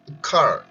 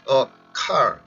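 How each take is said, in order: First: The two words run together without a break. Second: The two words are separated by a break. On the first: The speaker calls it right. "아예 붙은 것처럼" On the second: The speaker calls it wrong. "이 단어를 끊어서 이렇게 발음이 하는 게 아니라"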